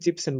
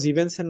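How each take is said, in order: First: The word is said with two syllables. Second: The word is said with three syllables. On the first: The speaker calls it right. "জিপসেন বলবো" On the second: The speaker calls it wrong. "জিভেনসেন না বলে"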